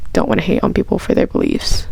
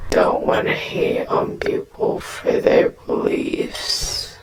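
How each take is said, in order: First: Said in the usual way. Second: A low, slow, eerie whisper; low creepy whisper, drawn out. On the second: Pretend. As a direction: breathe it out low and creepy, slowly. Repeats line as spooky whisper.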